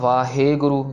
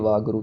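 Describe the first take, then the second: First: A long stretched e follows the h. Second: No vowel follows the h. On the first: "जिसमें हम हे को बहुत लंबा खींच देते हैं" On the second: "बीच में कुछ भी नहीं लगा देते"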